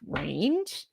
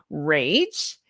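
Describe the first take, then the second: First: "range" with an n slipped in before the final g; misspoken word. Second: Said in the usual way. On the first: Real, not acted. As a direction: say "range", n sound before the soft g. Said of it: "I said range". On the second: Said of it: "Let me try that again".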